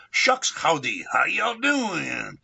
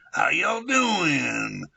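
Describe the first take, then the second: First: Drawled cowboy howdy greeting, stretched out slow; Texan-Chicano greeting. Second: Slow, high Texan drawl on "How y'all doing?"; Texan accent. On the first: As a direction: switch from Chicano to Texan mid-sentence. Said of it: "we created the greeting". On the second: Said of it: "like a Texan". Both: Shown as a demonstration.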